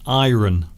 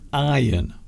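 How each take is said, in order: First: The word is said with an audible R sound. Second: The word is said with no R sound. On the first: "It is common also in the U S A" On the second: "many people favour the silent R"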